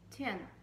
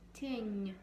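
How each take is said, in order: First: The final n is hard, not palatalized. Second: The final n is soft, palatalized. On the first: "If there was no soft sign at the end, the word would sound completely differently" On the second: "You see it becomes soft"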